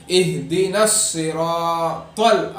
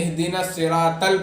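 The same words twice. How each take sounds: First: Slow, elongated اہدنا الصراط; emphatic drawn-out recitation, thick "tol" ending الصراط ال; heavy saad and taa. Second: Quick اہدنا الصراط ال ending in thin "tal"; unstretched misreading of الصراط; wrong light taa. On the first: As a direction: round out the ص and ط in الصراط. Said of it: "تا ہے یہاں پہ". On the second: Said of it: "لیکن غلط". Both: Shown as a demonstration.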